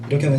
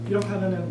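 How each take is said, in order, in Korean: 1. 목소리가 가깝고 또렷하게 들려요. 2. 목소리가 멀고 희미하게 들려요. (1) "이렇게 하면 잘 들려요" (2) "이렇게 하면은 잘 안 들려요"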